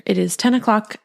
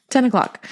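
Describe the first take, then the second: First: Said in the usual way. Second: Laughing disbelief. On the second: Real, not acted. Tired mom repeating the late hour to listeners, laughing. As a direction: repeat ten o'clock with a laugh in it, ten stressed.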